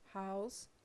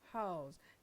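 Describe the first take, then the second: First: The word ends in a voiceless s sound. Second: The word ends in a voiced z sound. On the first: It is used as a noun. "the noun ends in a voiceless fricative s or th" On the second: It is used as a verb. "the verb in a voiced fricative th or z"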